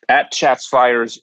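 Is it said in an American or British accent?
American. It is said in an American accent.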